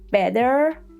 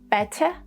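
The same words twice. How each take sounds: First: The final R sound is clearly pronounced. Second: The final R sound is dropped. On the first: "I just used the rhotic accent" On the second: "In non-rhotic accent, mostly the British accent, you would hear"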